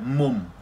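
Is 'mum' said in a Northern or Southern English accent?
Northern. It is said in a Northern English accent. "I'm like"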